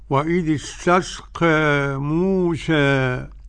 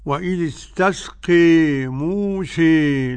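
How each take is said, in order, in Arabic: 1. الحركة الأخيرة بين a و e. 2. الحركة الأخيرة تميل بشدة نحو e. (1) "الوجه الثاني الذي قرأته فضيلتكم هو التقليل" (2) "وقرأ حمزة والكسائي وخلف العاشر بالإمالة"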